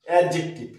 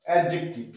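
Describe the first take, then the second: Both takes have the same delivery.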